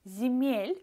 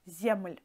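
First: A vowel is inserted between the M and L. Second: The M and L sit together without a vowel. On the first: The speaker calls it right. "Zemel for us sounds better" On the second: The speaker calls it wrong. "than Zemel"

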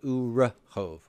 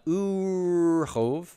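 First: A short vowel is heard after the r. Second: The r runs straight into the next consonant. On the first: The speaker calls it right. "Why am I vocalizing that shavah as a vokal shavah?" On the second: The speaker calls it wrong. "So not urhov"

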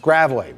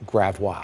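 First: The name is said the way locals say it. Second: The name is said the way outsiders say it. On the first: The speaker is from the area. The speaker calls it right. "It's gravelly. We're in Missouri" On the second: The speaker is not from the area. The speaker calls it wrong. "they would pronounce it gravois"

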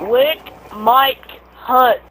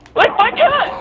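First: It is said at a normal, unhurried pace. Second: It is said quickly, run together.

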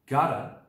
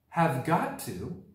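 First: The words are reduced and blended together. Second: All words are said in full.

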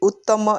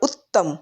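First: The first vowel is drawn out long. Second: The first vowel is kept short. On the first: The speaker calls it wrong. "આપણે એવી ઉત્તમ એમ નથી કહેતા" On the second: The speaker calls it right. "પણ ઉત્તમ"

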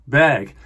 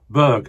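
First: The name is said the native-sounding way. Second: The name is said the anglicized way. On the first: The speaker calls it right. "It should be more like Berg" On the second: The speaker calls it wrong. "I know I'm pronouncing that wrong"

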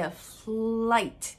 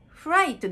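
First: The second sound is a clear L. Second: The second sound blurs toward an R. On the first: The speaker calls it right. "フライトです" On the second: The speaker calls it wrong. "フライトではなくて"

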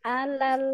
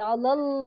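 First: The L sound is thin and light. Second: The L sound is thick and heavy. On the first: The speaker calls it right. "tipiskan lagi ya" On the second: The speaker calls it wrong. "tidak alal"

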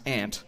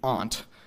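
First: The vowel is the common American one. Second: The vowel is the broad Boston one. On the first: "which most other Americans will pronounce aunt" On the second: "most of us will show the remnants of this rule in our pronunciation of aunt"

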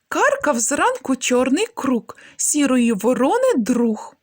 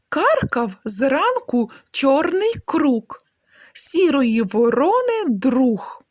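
First: The phrase is said at a faster pace. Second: The phrase is said slowly and clearly. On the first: "Трошки швидше" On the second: "Спочатку вимовляємо скоромовки повільно"

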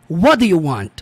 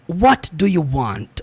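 First: The T sound is reduced and linked. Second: The T sound is pronounced with force. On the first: "Na maioria das vezes aqui nós vemos essa frase aqui como" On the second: "o T aqui tem mais força do que no inglês americano"

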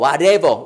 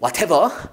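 First: The middle t sounds like a quick flap. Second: The middle t is a clear t sound. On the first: "모음하고 모음 사이 나오는 T는 리을로 발음하죠" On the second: "브리티시 잉글리시 시켜서 whatever"

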